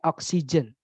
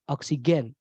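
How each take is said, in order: First: It is said with English vowels and sounds. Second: It is said with Indonesian vowels and sounds. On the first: The speaker calls it right. "Ini bacanya oxygen" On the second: The speaker calls it wrong. "bukan oxygen atau oksigen, bukan"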